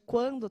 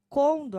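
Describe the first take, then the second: First: The word begins with a 'kwa' sound. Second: The word begins with a plain 'ko' sound. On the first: This is the standard way of speaking. "ao invés de quando" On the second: This is the rural regional way of speaking. "Eles colocam condo"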